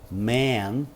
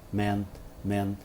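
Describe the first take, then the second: First: Man with a long drawn open vowel. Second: Man, man said quick and quiet. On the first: Teacher stretching the vowel in man. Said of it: "eu alongo a vogal". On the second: Teacher saying man fast and short. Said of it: "falo bem rapidinho". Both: Shown as a demonstration.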